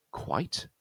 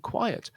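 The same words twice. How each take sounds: First: "quite" said in a single syllable; QUITE as one syllable. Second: "quiet" in two beats, KWY-ut; QUIET as two syllables. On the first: Teacher contrasts confusable words, "quite" in one syllable. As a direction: say "quite" as one beat, KWYTE. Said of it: "is a one-syllable word". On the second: Teacher contrasts confusable words, "quiet" in two syllables. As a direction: say "quiet" with a second, unstressed syllable. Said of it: "is a two-syllable word". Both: Shown as a demonstration.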